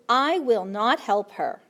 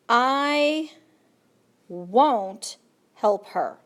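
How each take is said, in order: First: Will not is said as two full words. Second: Will not is contracted into one short word.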